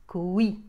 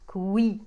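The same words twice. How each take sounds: Both takes have the same delivery.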